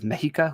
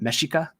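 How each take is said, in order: First: The x is said as an h sound. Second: The x is said as an sh sound. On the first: This is the Spanish pronunciation. "which would be the Spanish pronunciation of it" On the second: This is the Nahuatl pronunciation. "I've been pronouncing it Mexica"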